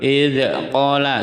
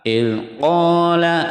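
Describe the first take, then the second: First: The first word's final consonant bounces with an echo. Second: The first word's final consonant stays still, no echo. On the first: The speaker calls it wrong. "salah karena ini bukan huruf qalqalah" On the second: The speaker calls it right. "tidak boleh mantul"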